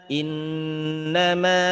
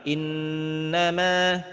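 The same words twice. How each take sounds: No difference in how they are said.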